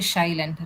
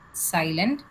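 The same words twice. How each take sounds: First: The word begins with an sh sound. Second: The word begins with an s sound. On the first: The speaker calls it wrong. "You don't say silent, right?" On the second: The speaker calls it right. "Silent s"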